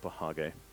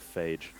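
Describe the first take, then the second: First: The word is stretched into two syllables. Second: The word is said as one short syllable. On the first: This is jokingly claimed as the obvious way. "It's obviously a Pahage" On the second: This is the usual way people say it. "people call it a phage"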